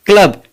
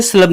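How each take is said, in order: First: क्लब as "klub", C read as क; hard C. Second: स्लब mispronounced as "slub", C as स; wrong soft C. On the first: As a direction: say क्लब starting with "kl". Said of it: "सी का sound क है". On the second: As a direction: say स्लब starting with "sl". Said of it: "इसे स्लब नहीं पढ़ेंगे". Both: Shown as a demonstration.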